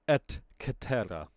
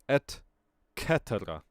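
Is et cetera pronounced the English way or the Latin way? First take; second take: Latin; Latin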